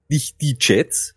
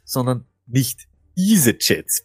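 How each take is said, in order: First: Slow, heavy stress on die in nicht die Jets. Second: Diese stressed to correct die, slowly. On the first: Host correcting himself, slow stress on die. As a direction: lean hard on die, slowly. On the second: Host correcting his co-host, stress on diese. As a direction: hit diese to set it apart from die. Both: Shown as a demonstration.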